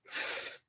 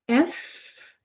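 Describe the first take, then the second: First: Only air is blown between teeth and lip. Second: The letter name is said with a vowel. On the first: "we pronounce it sound like F" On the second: "So F"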